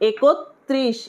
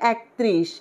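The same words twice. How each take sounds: First: The word is said carefully, each sound clear. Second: The word is said in a loose, careless way. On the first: The speaker calls it right. "কি হবে? একত্রিশ।" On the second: The speaker calls it wrong. "অনেকে বলে একত্রিশ, এটা কিন্তু একত্রিশ হবে না"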